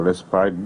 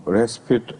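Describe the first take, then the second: First: Respite said with a long i, RESS-pite; alternative pronunciation. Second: Respite said with a short second vowel, RESS-pit; alternative pronunciation. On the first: Speaker showing the other accepted way, respite as RESS-pite. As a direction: say respite to rhyme its ending with "bite". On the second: Speaker showing one of both accepted ways, respite as RESS-pit. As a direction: say respite to rhyme its ending with "pit". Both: Shown as a demonstration. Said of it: "it's pronounced both ways".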